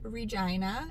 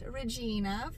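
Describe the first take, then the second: First: It uses the local Canadian pronunciation. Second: It uses the common American pronunciation. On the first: The speaker calls it right. "it is pronounced Regina" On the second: The speaker calls it wrong. "not Regina, for a lot of the American folks out there"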